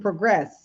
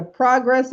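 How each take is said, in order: First: "progress" as pruh-GRESS, weight on second syllable; verb pronunciation. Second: "progress" as PRAH-gress, open first vowel; noun pronunciation. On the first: Coach showing same spelling sounds differently, "progress" said pruh-GRESS. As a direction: reduce the first vowel of "progress": pruh-GRESS. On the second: Coach showing same spelling sounds differently, "progress" said PRAH-gress. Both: Shown as a demonstration. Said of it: "but sounds differently".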